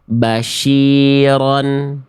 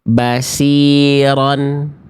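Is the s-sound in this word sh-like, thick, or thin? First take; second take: sh-like; thin. First: The s-sound is pronounced like sh. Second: The s-sound is thin, with the tongue root low. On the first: "yang C itu huruf shin" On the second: "yang A itu dibaca berubah menjadi huruf sin"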